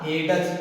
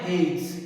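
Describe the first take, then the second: First: The d sound is clearly pronounced. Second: The d sound is silent. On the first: The speaker calls it wrong. "इसको ऐसे मत पढ़ना हेडस" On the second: The speaker calls it right. "हम डी को अब pronounce नहीं करेंगे"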